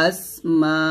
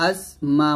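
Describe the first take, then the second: The two takes are said the same way.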